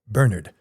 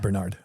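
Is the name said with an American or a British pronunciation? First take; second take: British; American. First: The name is said with a British pronunciation. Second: The name is said with an American pronunciation. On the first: This is the pronunciation an American could not manage. "an American could never say Bernard" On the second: This is the pronunciation an American would use. "not Bernard"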